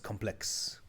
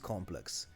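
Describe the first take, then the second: First: The stress is on the second syllable. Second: The stress is on the first syllable. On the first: It is used as an adjective. "if you're using it as an as an adjective, then I hear it as complex" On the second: It is used as a noun for a group of buildings. "with the emphasis on the first syllable"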